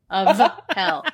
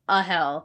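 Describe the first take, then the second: First: The word 'of' has a clear f sound. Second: The word 'of' is reduced to 'a', no f. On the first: The speaker calls it right. "Let's hit that F very clearly" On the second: The speaker calls it wrong. "I didn't say it right because it's who's the new king of hell, not a hell"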